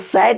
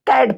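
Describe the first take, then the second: First: The word begins with an s sound. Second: The word begins with a k sound. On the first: The speaker calls it wrong. "इसको सैट नहीं पढ़ेंगे" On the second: The speaker calls it right. "कैट पढ़ेंगे"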